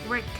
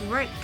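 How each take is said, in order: No difference in how they are said.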